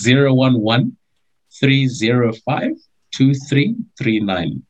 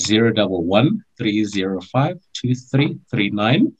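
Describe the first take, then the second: First: The number is said slowly. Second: The number is said fast.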